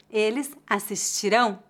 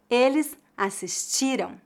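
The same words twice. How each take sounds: First: Assistirão stressed on the last syllable "RÃO"; assistirão as as-sis-ti-RÃO, careful model; final stress. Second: Assistiram stressed on "TI", weak nasal ending; penultimate stress. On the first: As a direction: land firmly on the nasal ending of assistirão. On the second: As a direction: hit the TI in assistiram, let "ram" drop. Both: Shown as a demonstration. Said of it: "a diferença de pronúncia dos verbos".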